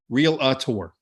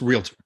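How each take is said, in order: First: The word is said with three syllables. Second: The word is said with two syllables. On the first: The speaker calls it wrong. "he three syllables it" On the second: The speaker calls it right. "It's realtor"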